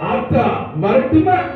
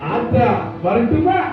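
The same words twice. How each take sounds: First: The voice is forceful and hard-edged. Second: The voice is soft and tender. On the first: This is how the actor sounded early in his career. "திரைத்துறைக்கு வந்த புதுசுல captain அவர்களுடைய voice எப்படின்னு பாருங்க" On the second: This is how the actor sounded speaking to mothers. "தாய் குளங்கள்கிட்ட பேசும்போது ... அப்படியே உருகிடுவாப்ல"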